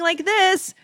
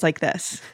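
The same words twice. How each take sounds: First: The voice is pitched at a higher, normal level. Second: The voice is pitched about an octave lower. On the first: The speaker calls it wrong. "instead of sounding like this" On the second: The speaker calls it right. "I drop my voice an octave. So I actually speak in a lower voice"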